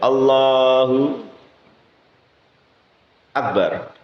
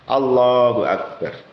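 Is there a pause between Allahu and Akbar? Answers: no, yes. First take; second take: yes; no. First: There is a pause between the two words. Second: The two words run together without a pause. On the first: The speaker calls it wrong. "tidak boleh dijeda. Mau pendek maupun panjang" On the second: The speaker calls it right. "Jadi harus dibaca dengan jelas"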